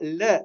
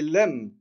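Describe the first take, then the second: First: The word ends on a vowel without m. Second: The word ends with a clear m sound. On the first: The speaker calls it wrong. "ce n'est pas « le »" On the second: The speaker calls it right. "c'est « lem »"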